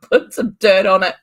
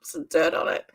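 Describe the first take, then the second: First: "Put some dirt on it" said louder, brisk and dismissive; brisk mum. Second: "Some dirt on it" whispered to herself; whispered repeat. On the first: Retold or imitated. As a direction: tell him off loudly. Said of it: "my mummy voice is just like". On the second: Real, not acted. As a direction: whisper the punchline again.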